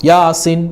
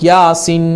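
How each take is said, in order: The two takes are said the same way.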